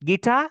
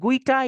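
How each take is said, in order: First: It begins with a plain g sound. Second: It begins with a kw sound. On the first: The speaker calls it right. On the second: The speaker calls it wrong.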